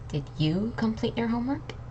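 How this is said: The word "you" is stressed. It asks whether someone else did it. "I was emphasizing on these three words: you"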